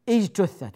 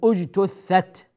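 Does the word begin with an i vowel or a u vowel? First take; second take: i vowel; u vowel. First: The first and third vowels are not u sounds. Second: The first and third vowels are u sounds. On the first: The speaker calls it wrong. "وهذا خطأ" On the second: The speaker calls it right. "بضم الأول وضم الثالث أيضا"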